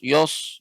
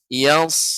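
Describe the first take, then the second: First: The syllable is said heavy, with a thick vowel. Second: The syllable is said light, with a thin vowel. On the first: The speaker calls it wrong. "jangan sampai menjadi tebal. Yos yos yos, ya bukan yos" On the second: The speaker calls it right. "dia bukan huruf yang tebal"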